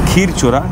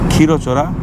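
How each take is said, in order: First: The name is said with a Bengali pronunciation. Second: The name is said with an Odia pronunciation.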